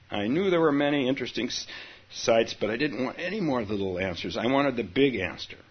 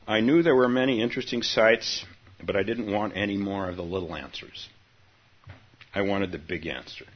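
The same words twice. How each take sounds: First: Faster reread. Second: Said in the usual way. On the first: Shown as a demonstration. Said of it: "rereads the opening". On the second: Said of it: "first reading".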